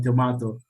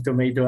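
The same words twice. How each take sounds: First: Tomato with "mah" as its middle syllable; British pronunciation. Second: Tomato with "may" as its middle syllable; American pronunciation. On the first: Teacher retelling the actor's video fight, tomato said "to-MAH-to". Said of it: "the pronunciation of tomato and tomato". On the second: Teacher retelling the actor's video fight, tomato said "to-MAY-to". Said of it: "they fight, uh, about the pronunciation". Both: Shown as a demonstration.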